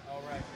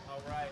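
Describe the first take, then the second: No difference in how they are said.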